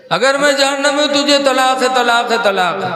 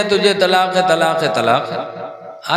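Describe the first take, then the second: First: High, raised imitated outburst; mock angry husband. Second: Slow, fading, half-laughing repeat; sheepish retelling. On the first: Preacher mimicking angry husbands, high mock outburst. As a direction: ham up the angry husband's threat. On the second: Retold or imitated. Harun confessing to the clerics, slow and fading with a laugh. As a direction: trail off sheepishly.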